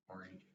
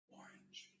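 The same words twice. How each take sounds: First: Said in the usual way. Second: Unvoiced whisper into the ear; whisper in left ear. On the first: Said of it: "Just tell me what I, what you hear". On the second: Shown as a demonstration. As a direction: barely breathe the word Orange. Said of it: "I'm gonna whisper".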